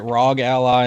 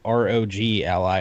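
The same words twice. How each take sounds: First: Rog said as one syllable in "rog Ally"; "rog Ally", rog blended rather than spelled; rog as a word. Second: R O G said letter by letter before Ally; "R O G Ally" as three separate letter names; spelled-out letters. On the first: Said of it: "I've heard it rog Ally". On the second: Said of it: "I've heard it R O G Ally". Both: Shown as a demonstration.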